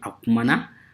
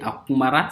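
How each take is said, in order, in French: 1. La dernière syllabe commence par un son n. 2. La dernière syllabe commence par un son r. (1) "ça devient akumana" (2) "Au lieu de akumara"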